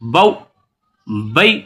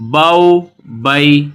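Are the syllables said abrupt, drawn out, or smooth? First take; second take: abrupt; smooth. First: The syllables are cut off with a jerk. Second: The syllables are short, soft and smooth. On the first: The speaker calls it wrong. "झटके से भी नहीं पढ़ना" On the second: The speaker calls it right. "बगैर खींचे, बगैर झटका दिए नरमी से"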